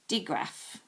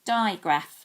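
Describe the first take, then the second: First: The first syllable has a short vowel. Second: The first syllable has a long 'eye' vowel. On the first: "That doesn't quite make sense" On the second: "That can make an I. So let's try it with I"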